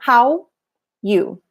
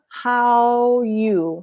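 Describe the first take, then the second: First: The two words are said apart. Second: The two words run together smoothly. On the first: The speaker calls it wrong. "not how you" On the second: The speaker calls it right. "It blends"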